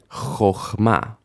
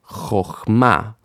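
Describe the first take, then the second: The two takes are said the same way.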